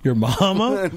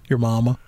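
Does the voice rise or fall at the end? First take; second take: rises; falls. First: It is said as a question, rising. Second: It is said as a flat statement, falling.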